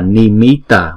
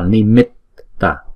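First: The middle t is short and single. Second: The middle t is held and doubled. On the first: The speaker calls it wrong. "không phải là Nimitta" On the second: The speaker calls it right. "mà là Nimitta. Bởi vì có hai chữ T thì chúng ta đọc chuyển cái này thành chữ mit rồi ta"

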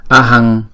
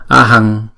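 No difference in how they are said.

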